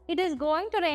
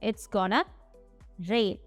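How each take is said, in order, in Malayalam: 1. 'going to' പൂർണ്ണമായി, ചുരുങ്ങാതെ പറയുന്നു. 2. 'going to' ചുരുങ്ങി 'gonna' ആകുന്നു.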